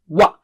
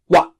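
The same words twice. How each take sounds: First: It begins with rounded lips, a w sound. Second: It begins with rounded lips, a w sound.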